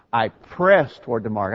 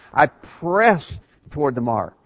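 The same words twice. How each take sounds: First: "press" given moderate weight; stress on "press". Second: "press" drawn out slowly with weight; strong stress on "press". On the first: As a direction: lean lightly on the word "press". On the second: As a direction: bear down on "press" and hold it. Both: Shown as a demonstration. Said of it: "the emphasis there on that verb press".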